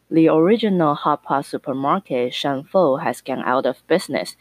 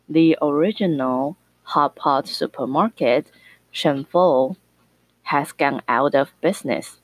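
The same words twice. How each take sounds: First: It is spoken at a normal speed. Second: It is spoken at a slow speed. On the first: "我们先正常速度" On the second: "然后再慢速"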